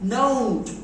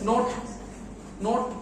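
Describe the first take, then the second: First: The vowel glides from o toward u. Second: The vowel is a flat, pure o sound. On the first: The speaker calls it right. "pronunciation is note, ও ও" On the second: The speaker calls it wrong. "But ভুল আছে"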